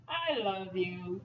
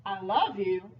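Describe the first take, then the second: First: Slow, drawn-out "I love you", softer; lingering, slow declaration; changed inflection. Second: Said in the usual way. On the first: Shown as a demonstration. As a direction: stretch out "I love you" gently. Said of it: "you change the inflection". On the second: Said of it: "Let me try to get it".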